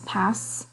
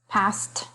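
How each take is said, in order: First: The final t sound is dropped. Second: The final t sound is clearly pronounced.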